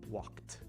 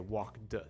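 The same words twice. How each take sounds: First: The word ends with a T sound. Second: The word ends with a D sound. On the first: "I think it's more common you'll hear the T sound at the end" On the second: "There are some people you might hear say walked"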